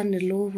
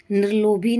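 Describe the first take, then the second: First: निर्लोभ closed on bh; correct form. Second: निर्लोभी louder, ending in ee; wrong form. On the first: Teacher correcting the word, निर्लोभ ending in bh. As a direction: drop the final ee from निर्लोभ. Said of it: "होता है". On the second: Teacher showing the error, निर्लोभी ending in bhee. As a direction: hit निर्लोभी with a final bhee. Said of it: "नहीं होता". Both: Shown as a demonstration.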